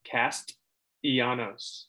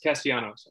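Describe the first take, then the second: First: The T sound is clearly pronounced. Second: It is said fast and the T is dropped. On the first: The speaker calls it right. "There it is" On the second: The speaker calls it wrong. "I said it fast and it didn't pronounce it"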